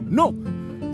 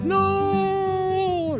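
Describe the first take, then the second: First: The no sounds short and abrupt. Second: The no sounds agreeing and accepting. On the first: The speaker is cutting something off. "the abrupt no" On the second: The speaker is going along with something. "the no where the no assents"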